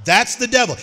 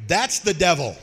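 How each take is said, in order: First: Higher and louder, driving it home; emphatic preacher's declaration. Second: Said in the usual way. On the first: Real, not acted. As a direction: hit "That's the devil" hard. Repeats line, second time punched.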